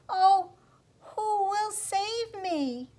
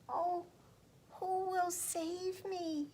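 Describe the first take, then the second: First: It is said slightly louder than quiet. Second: It is said in a small, quiet voice.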